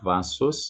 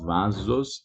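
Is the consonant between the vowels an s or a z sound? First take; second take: s; z. First: The middle consonant sounds like s. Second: The middle consonant sounds like z. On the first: The speaker calls it wrong. "It's not vasos" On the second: The speaker calls it right. "it's vasos"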